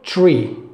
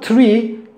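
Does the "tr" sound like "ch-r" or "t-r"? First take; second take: ch-r; t-r. First: The t and r sound like ch-r. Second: The t and r are pronounced as a plain t-r. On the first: The speaker calls it right. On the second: The speaker calls it wrong.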